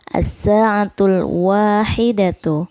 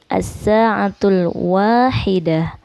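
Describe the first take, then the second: First: The last word ends with a full 'tu' syllable. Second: The last word ends with a soft 'h' sound.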